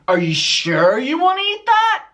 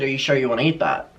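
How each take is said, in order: First: It is read in a hostile, aggressive tone. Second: It is read in a plain, neutral tone.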